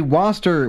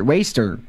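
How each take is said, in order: First: "Waster" said as "WAW-ster"; mispronounced Waster. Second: Said in the usual way. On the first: Real, not acted. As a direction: misread "Waster" with an "aw" vowel. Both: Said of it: "What was that pronunciation of waste?".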